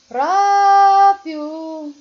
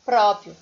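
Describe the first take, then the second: First: "Próprio" sung high and loud, PRÓ held; sing-song stretch. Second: Said in the usual way. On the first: Shown as a demonstration. Teacher demonstrating the technique on Próprio, loud sing-song stretch. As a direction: belt out a long PRÓ in "Próprio". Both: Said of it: "a partir dessa técnica".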